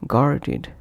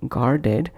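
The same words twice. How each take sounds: First: "guarded" said as gar-did; id ending. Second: "Guarded" ending in ed, gar-ded; spelt-out ed. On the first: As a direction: end "guarded" with a short id. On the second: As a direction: say "Guarded" to rhyme its end with bed. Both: Shown as a demonstration. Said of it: "is pronounced as".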